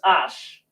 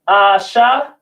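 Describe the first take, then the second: First: The word ends on the sh consonant. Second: The word ends with an extra a vowel. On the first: The speaker calls it right. "it's Ash" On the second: The speaker calls it wrong. "instead of Asha"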